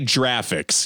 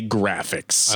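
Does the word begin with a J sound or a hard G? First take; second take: J sound; hard G. First: The word begins with a J sound. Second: The word begins with a hard G sound. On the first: The speaker calls it wrong. "You don't say graphics" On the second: The speaker calls it right. "you say graphics"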